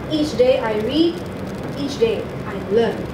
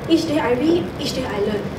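First: There is a clear pause after 'read'. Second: There is no clear pause after 'read'. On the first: The speaker calls it right. "pause more. For example" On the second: The speaker calls it wrong. "You said"

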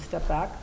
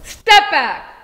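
First: It is said at a normal, calm volume. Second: It is said loudly, with a raised voice. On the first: A polite first request to move away. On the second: A forceful warning that sets a firm boundary.

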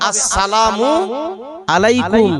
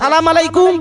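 First: Every syllable of the greeting is fully pronounced. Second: The opening syllables of the greeting are dropped. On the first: The greeting works as a blessing. The speaker calls it right. "সালামটা হবে ... ভালোভাবে সালাম দিতে হবে" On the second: The greeting can turn into a curse instead of a blessing. The speaker calls it wrong. "আর আমরা সালাম দেওয়া"

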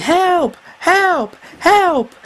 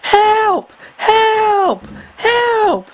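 First: It is shouted less loudly. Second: It is shouted more loudly.

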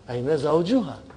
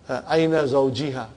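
First: The vowel after zawj is a u. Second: The vowel after zawj is an i. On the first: The noun is treated as nominative. The speaker calls it right. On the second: The noun is treated as genitive. The speaker calls it wrong.

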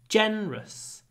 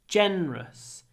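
First: The word is said with only two syllables. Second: The word is said with only two syllables.

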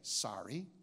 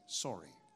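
First: It is said with an American accent. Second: It is said with a Canadian accent. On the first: "in America, you say sorry" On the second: "in Canada, I say sorry"

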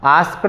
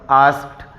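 First: The word ends with a d sound. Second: The word ends with a t sound. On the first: The speaker calls it wrong. "आस्क्ड नाही म्हणायचं" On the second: The speaker calls it right. "के नंतर ईडी आला की ट sound येतो"

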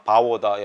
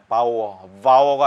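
First: The word begins with a B sound. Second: The word begins with a V sound. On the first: The speaker calls it right. "요건 V 발음이 아니고 B 발음이니까" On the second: The speaker calls it wrong. "바오가 아니고"

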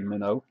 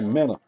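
First: The word ends in an 'oh' vowel. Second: The word ends in an 'uh' vowel. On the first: This is not how the speaker's community says it. The speaker calls it wrong. "We don't say minnow" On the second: This is how the speaker's community says it. The speaker calls it right. "We say minna"

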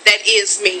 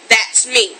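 First: The words "that is" are said in full. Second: The words "that is" are contracted to "that's". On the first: The speaker calls it wrong. "This is what you're doing" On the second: The speaker calls it right. "I don't say is. This is what I say"

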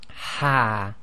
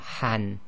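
First: The syllable ends with a long a. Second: The syllable ends with an n sound. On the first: The reader stops on the word. "when we stop ... We effectively pronounce this as ha" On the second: The word is read without stopping on it. "noon sakin, so han"

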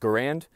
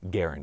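First: The name does not rhyme with errand. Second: The name rhymes with the word errand. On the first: This is how most people in the country say it. "in the U.S., everyone says Garand" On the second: This is how the name's owner wanted it said. "his preferred way of his name being pronounced was Garand, as in errand"

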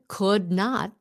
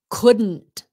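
First: The two words are said in full. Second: The words are run together as one contraction. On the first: "Could not becomes" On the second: "becomes couldn't"

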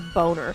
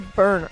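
First: The first vowel sounds like 'oh'. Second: The first vowel sounds like 'er'. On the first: The name is said as it is spelled. The speaker calls it right. "spelt Boner" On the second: The name is disguised to avoid sounding rude. The speaker calls it wrong. "pronouncing it like you're fucking, it got marbles in your mouth"

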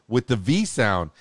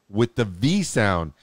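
No difference in how they are said.

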